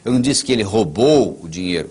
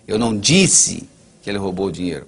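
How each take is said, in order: First: The stress is on "roubou". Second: The stress is on "disse".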